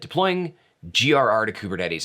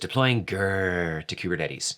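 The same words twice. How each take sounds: First: GRR is spelled out as three separate letters. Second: GRR is said as one short word.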